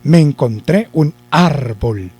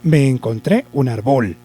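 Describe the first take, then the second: First: The stress is on the first syllable of árbol. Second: The stress is on the last syllable of árbol. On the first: "Si lleva el acento en ar, yo diría" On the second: "Y si la llevara en bol, yo diría"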